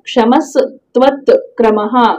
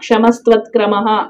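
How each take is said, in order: First: It is broken into three separate parts. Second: It is run together as one word. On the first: "అలా మూడుగా విభజించి చదవండి" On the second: "ఒక్క పదంగా అనడం"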